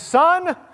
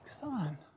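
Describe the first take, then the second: First: It is said in a cold, flat tone. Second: It is said in a warm, tender tone.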